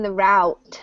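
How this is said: It is said with an American pronunciation.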